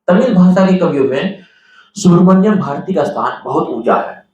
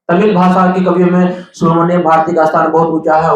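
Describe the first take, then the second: First: It is read calmly at a measured pace. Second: It is read fast and hurriedly.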